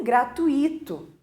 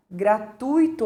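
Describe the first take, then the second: First: Gratuito stressed on the I, gra-tu-I-to; common misplaced stress. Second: Gratuito stressed on TU, gra-TUI-to; correct stress. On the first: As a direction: split "gratuito" into four syllables, beat on I. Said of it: "as pessoas normalmente dizem gratuito". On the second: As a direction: say "gratuito" with ui in one syllable, beat on U. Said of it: "a correta pronúncia seria". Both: Shown as a demonstration.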